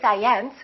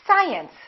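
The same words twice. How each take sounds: First: The stress is on the second syllable. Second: The stress is on the first syllable. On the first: The speaker calls it wrong. "we don't say science" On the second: The speaker calls it right. "it's the first one"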